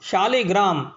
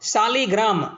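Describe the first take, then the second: First: The word begins with an sh sound. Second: The word begins with a plain s sound. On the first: The speaker calls it right. "તાલવ્ય સ જે છે, એટલે કે મીંડાવાળો સ જે છે એ જ યોગ્ય છે" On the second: The speaker calls it wrong. "દંત્ય સ જે છે તેનું ઉચ્ચારણ કરે છે"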